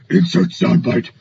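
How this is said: It is said in a deep, gravelly put-on voice.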